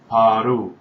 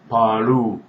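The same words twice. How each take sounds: First: It is said with a Korean accent. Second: The same.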